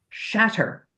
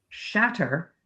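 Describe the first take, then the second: The two takes are said the same way.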